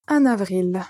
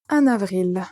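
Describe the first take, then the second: First: The n sound links into the next word. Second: The n sound links into the next word.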